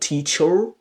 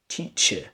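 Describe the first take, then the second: First: The final syllable has a full, strong vowel. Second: The final syllable is reduced to a schwa. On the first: The speaker calls it wrong. "it's not teacher" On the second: The speaker calls it right. "you replace it with a weak form schwa sound"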